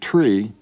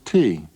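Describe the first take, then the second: First: The word starts with the cluster tr. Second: The word starts with a single t sound.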